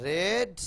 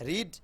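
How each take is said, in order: First: রেড said like red, short e, a bit louder; রেড rhymes with bed, the past-tense read. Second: রিড said with long ee as in reed; রিড sounding like reed, the present-tense way; রিড with the long ee vowel; wrong vowel reed. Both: Shown as a demonstration. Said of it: "উচ্চারণটা হবে রেড".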